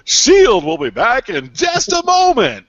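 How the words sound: It is said in a cheerful, upbeat tone. The break clashes with the mood of the show. "it's like this upbeat"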